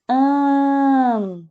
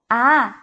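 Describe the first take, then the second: First: The vowel is nasal, through nose and mouth. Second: The vowel is open and oral, through the mouth. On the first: "Som do A já nasal" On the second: "com o som do A aberto"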